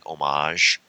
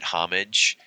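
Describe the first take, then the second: First: The H at the start is silent. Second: The H at the start is pronounced. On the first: This is the French way of saying it. "the French pronunciation is you can the H can be silent like homage" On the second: This is how most Americans say it. "Most Americans pronounce it homage"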